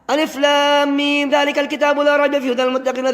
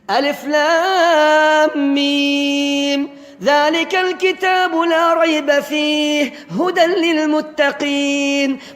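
First: It is recited quickly and hurriedly. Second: It is recited slowly and clearly. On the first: The speaker calls it wrong. "böyle vitesi 5'e koyduğunuz zaman olmadı" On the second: The speaker calls it right. "Bu şekilde yavaş yavaş ve anlaşılır"

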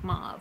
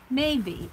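First: The name is said with one syllable. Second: The name is said with two syllables. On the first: "I always pronounce it Mauve" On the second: "I never knew that's how you pronounce that"

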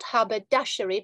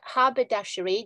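First: The stress falls on a later syllable. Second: The stress falls on the first syllable. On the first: The speaker calls it wrong. "It's not haberdashery" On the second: The speaker calls it right. "the stress is marked, it's on the first syllable"

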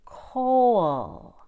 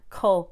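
First: The vowel in 'coal' sounds rounded, with lip rounding. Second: The vowel in 'coal' sounds flat, without lip rounding. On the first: The speaker calls it right. "It's more rounded, like coal" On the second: The speaker calls it wrong. "No, not coal"

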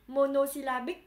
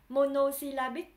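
The two takes are said the same way.

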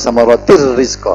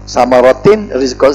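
First: The n merges into r without any nasal hum. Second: The n sound is clearly heard before rizqa. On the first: The speaker calls it right. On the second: The speaker calls it wrong.

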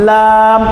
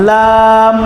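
Both takes have the same delivery.

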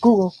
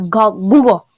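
First: The word is said at a normal, softer volume. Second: The word is said at a louder volume. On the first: "I just pronounce you say that Google" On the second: "When I say louder"

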